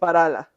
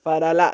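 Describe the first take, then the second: First: The stress is on the first syllable. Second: The stress is on the last syllable. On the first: The speaker calls it right. "The first one" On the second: The speaker calls it wrong. "because Farala would be the last A"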